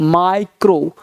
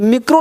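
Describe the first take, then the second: First: The first vowel sounds like 'eye'. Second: The first vowel sounds like 'ee'. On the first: The speaker calls it right. "क्या पढ़ना है, माइक्रो" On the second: The speaker calls it wrong. "मिक्रो नहीं पढ़ना"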